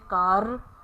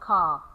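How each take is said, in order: First: The final R sound is pronounced. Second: The final R sound is dropped. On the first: The speaker calls it wrong. "we omit it and we don't say car" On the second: The speaker calls it right. "we say ka"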